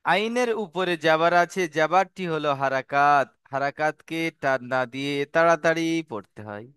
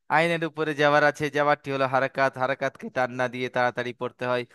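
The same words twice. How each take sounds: First: Measured teaching recitation. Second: Fast, run-together rote recitation; quick recap. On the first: Teacher spelling out the harakat rule to students, measured recitation. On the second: Teacher repeating what he just said to students, rapid recap. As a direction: rattle the rule off fast. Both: Shown as a demonstration.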